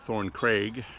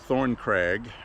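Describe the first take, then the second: First: The second word has a long 'ay' vowel. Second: The second word has a short 'a' vowel. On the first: The speaker calls it wrong. "They call it Thorn Craig, like C R A I G" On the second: The speaker calls it right. "It's actually a crag, C R A G"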